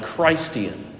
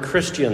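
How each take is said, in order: First: The first syllable sounds like the word 'Christ'. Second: The first syllable sounds like the usual short 'kris'.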